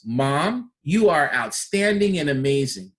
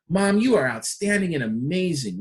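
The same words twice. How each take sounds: First: Bright emphatic compliment; with an exclamation point. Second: Energy behind the praise; emphatic praise for mom; strong emphasis at the end. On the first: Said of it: "Exclamation point". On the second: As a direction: stamp it with approval. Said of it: "really strong emphasis at the end". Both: Shown as a demonstration.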